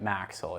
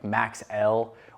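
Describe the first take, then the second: First: It is said as one word rhyming with axle. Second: It is said as Max plus the letter L. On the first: The speaker calls it right. "like Axle with an M in front of it" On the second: The speaker calls it wrong. "we'll actually hear it pronounced as like Max L"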